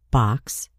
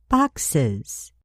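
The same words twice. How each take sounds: First: Said in the usual way. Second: Boxes with the added ending drawn out. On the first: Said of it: "We add E S to box". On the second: Shown as a demonstration. Teacher showing the new ending on boxes. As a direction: land clearly on the es of boxes. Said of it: "and we have boxes".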